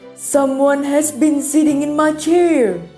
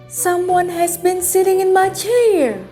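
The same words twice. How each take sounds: First: It is said in a deep, gruff voice. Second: It is said in a medium, middle-sized voice.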